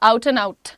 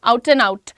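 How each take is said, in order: No difference in how they are said.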